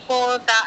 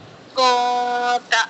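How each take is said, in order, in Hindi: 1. नासिका की ध्वनि t से पहले छोटी करके काटी जाती है। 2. नासिका की ध्वनि t से पहले थोड़ी देर रोकी जाती है। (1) "ये नहीं कि को ता ऐसे नहीं" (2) "ऐसा करिए कि पता चले कि हाँ इक्फा हो रहा है"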